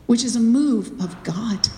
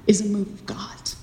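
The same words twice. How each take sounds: First: Said in the usual way. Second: Soft breathy whisper. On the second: Real, not acted. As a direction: whisper it reverently. Whispered repeat of the phrase.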